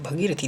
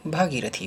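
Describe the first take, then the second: First: भगीरथी opened short, "bhagirathi"; wrong short first A. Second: भागीरथी opened long, "bhaagirathi"; correct long first A. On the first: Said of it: "भगीरथी नहीं होता है". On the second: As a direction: draw out the AA in भागीरथी. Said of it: "भागीरथी होता है". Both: Shown as a demonstration.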